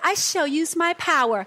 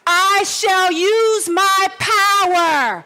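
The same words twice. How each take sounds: First: It is said weakly, with little force. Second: It is said strongly, with full force. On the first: The speaker does not mean it. The speaker calls it wrong. "There is no power in that voice you gave me" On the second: The speaker means it. The speaker calls it right. "say it like you meant it"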